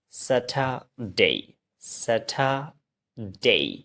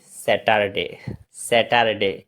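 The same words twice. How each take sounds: First: "স্যাটারডে" as sa-tha-dei, no r; corrected pronunciation. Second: "স্যাটারডে" with a full r, as se-tar-de; common mispronunciation. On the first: Teacher models "স্যাটারডে" for learners, drawn out as sa-tha-dei. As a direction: break "স্যাটারডে" into breathy-t tha and a long gliding dei. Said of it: "এটা হচ্ছে". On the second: Teacher shows how learners say "স্যাটারডে", wrongly as se-tar-de. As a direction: say "স্যাটারডে" quickly, lower, ending in a short de. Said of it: "এটা স্যাটারডে না". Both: Shown as a demonstration.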